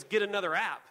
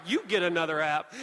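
First: Loud, mock dismissive comeback; curt retort. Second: YOU punched loud in a comeback; stress on YOU. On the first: Wife to husband about his app, curt retort. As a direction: dismiss it firmly, imitating the wife. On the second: Retold or imitated. Husband retorting to wife about the app, stress on YOU. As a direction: throw it back loudly, leaning on "You".

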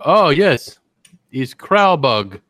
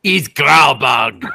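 First: Slow, drawn-out mock Lithuanian-ish accent with "Kralbug" stretched; mock foreign accent. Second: Slow, loud mock accent, "He's Kralbug" bellowed; shouted mock accent. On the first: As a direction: fake foreign guest savouring the dish, slow. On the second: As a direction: hammer the fake accent even louder. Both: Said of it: "if they talk like that".

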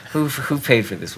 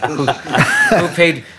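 First: Said in the usual way. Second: Slow, high, laughing through it; laughing disbelief. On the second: Retold or imitated. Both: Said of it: "and I'm like".

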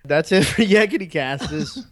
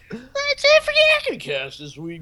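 First: Said in the usual way. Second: Jeff Bridges voice. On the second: Shown as a demonstration. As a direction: say it like a lazy dude. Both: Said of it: "should I say the rest like Jeff Bridges?".

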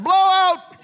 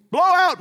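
First: Loud, much higher shout; yelled alarm. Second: Yell. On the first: Wife yelling about baby's diaper, loud and high. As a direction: sound the alarm. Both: Retold or imitated. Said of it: "My wife used to yell that".

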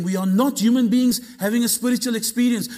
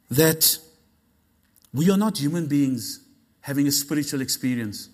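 First: Higher, driving preacher's delivery; fired-up, insistent preaching; emphatic repeat. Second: Low, deliberate delivery; unhurried, grave teaching tone; measured statement. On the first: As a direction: proclaim it with rising force. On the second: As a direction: lay it out calmly, with weight. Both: Shown as a demonstration. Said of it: "Let me say that again".

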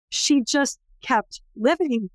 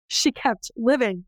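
First: Slow, higher, weighing each word; slow emphatic. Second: Slow echo. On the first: Speaker stresses that the survivor endured, slow and emphatic. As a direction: let "she just kept living" land slowly. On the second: Speaker echoes the survivor's endurance, slow restatement. Repeated emphasis. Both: Real, not acted.

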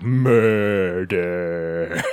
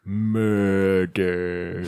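First: Murder stretched long and low; drawn-out murder. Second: Timothy Oliphant murder. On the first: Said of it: "every time they say murder, he's like". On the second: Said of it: "I gotta say it like Timothy Oliphant". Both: Retold or imitated.

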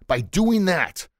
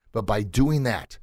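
First: "doing" stretched slowly and higher; slow, drawn-out "by doing that"; stress on doing. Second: Said in the usual way. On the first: Shown as a demonstration.

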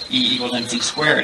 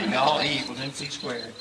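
First: Said in the usual way. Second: Mock hillbilly Southern accent. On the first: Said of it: "a Southern man can say". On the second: Southern debater joking about his own accent, mock hillbilly Southern. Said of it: "make it sound hillbilly".

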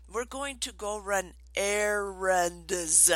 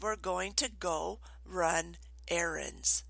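First: Slow, with "errands" stretched out syllable by syllable; over-enunciate "errands" slowly for a small child; retold painstakingly slow explanation; really slow. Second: Slow, softer, word-by-word quote; slow, deliberate restatement; measured requote. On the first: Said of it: "I said it really slow". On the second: Retold or imitated. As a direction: repeat it slowly and quietly, spacing out "run errands". Requotes what child misheard.

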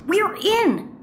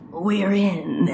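First: High, quick triumphant "we're in"; excited announcement. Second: Low, drawn-out "we're in"; dramatic redo. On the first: Plumber tells partner they made it inside, excited. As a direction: announce getting in with a high lift. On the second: Plumber repeats the line for effect, low and dramatic. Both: Acted. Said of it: "Let me say that again".

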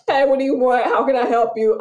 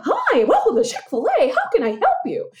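First: Curt, louder, impatient drive-thru greeting; gruff McDonald's clerk. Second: High, bright, extra-friendly drive-thru welcome; sweet Chick-fil-A greeting. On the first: Fast-food clerk brushing off a customer, curt and louder. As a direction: bark the order question like you're bothered. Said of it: "You go to McDonald's". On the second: Drive-thru worker greeting a customer, sugary and much higher. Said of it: "they all sound like this". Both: Retold or imitated.

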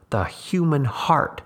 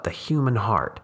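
First: Human heart drawn out slow and high; emphatic repeat. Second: Said in the usual way. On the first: A narrator's reading. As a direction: lean hard on the human heart. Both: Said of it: "he repeated".

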